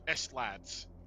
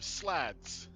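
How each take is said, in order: First: The S is split off before lads. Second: The word is said as one smooth syllable.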